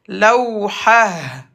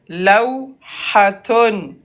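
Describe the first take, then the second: First: The word ends with an 'h' sound. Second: The word ends with a 'tun' sound. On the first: "T fermé se prononce comme Ha" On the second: "le mot c'est lawhaton"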